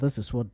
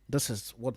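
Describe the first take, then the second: First: The voice is processed to sound deeper. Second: The voice has its normal, natural depth. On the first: "this is what deep will really sound like" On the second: "This is what natural voice would sound like"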